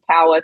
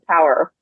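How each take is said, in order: First: It has a non-American accent with the R dropped. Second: It has an American accent with the R pronounced. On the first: The speaker calls it wrong. "correcting power to power" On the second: The speaker calls it right. "correcting power to power"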